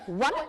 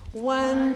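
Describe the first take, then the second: First: It is said like a strict teacher. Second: It is said in a bored way.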